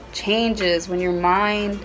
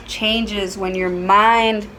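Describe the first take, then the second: No difference in how they are said.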